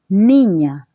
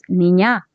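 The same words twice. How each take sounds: First: The stress is on the first syllable. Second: The stress is on the second syllable. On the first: The speaker calls it right. "dices niña ... ni viene a ser la sílaba tónica" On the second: The speaker calls it wrong. "no dices niña"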